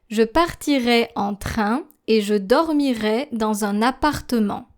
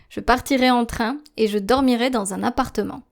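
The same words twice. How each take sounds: First: It is read at a slow pace. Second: It is read at a normal speaking pace. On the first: "the slower version of that text" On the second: "I will be reading the text at a normal pace"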